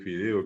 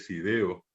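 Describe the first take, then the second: First: The word begins with an f sound. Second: The word begins with an s sound. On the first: The speaker calls it right. "en vez de fideo" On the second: The speaker calls it wrong. "la gente que dice sideo"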